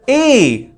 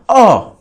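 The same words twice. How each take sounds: First: The vowel is said like the letter's name. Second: The vowel is said as a short sound. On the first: The speaker calls it right. "it sounds like the letter A" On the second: The speaker calls it wrong. "and not A"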